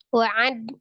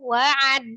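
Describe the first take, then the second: First: The 'a' vowel is short and level. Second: The 'a' vowel is swung up in pitch. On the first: The speaker calls it right. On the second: The speaker calls it wrong.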